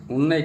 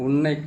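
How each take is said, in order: Both takes have the same delivery.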